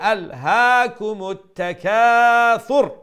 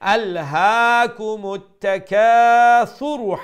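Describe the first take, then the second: First: The final r is closed off with no vowel. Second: The final r carries an u vowel and flows on. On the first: The reciter stops at the end of the verse. "যদি স্টপ করেন তাইলে তো জজম স্পষ্ট করি" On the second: The reciter continues into the next verse. "Continue করেন তাইলে আরবার রার উপরে যে পেশ আছে এটা স্পষ্ট করিয়া উচ্চারণ করিয়া কন্টিনিউ করবা"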